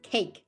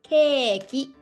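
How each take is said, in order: First: It is one syllable ending in a bare k. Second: It has a long e and a final 'ki' syllable. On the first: "in English, it's cake" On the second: "in Japanese, it's called keiki"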